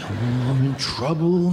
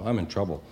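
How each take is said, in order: First: It is said with strong, fearful emotion. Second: It is said flatly, without much emotion.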